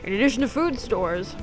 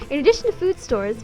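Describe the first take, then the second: First: It is read in an ordinary, plain voice. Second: It is read in a put-on newsreader voice. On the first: The speaker calls it wrong. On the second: The speaker calls it right.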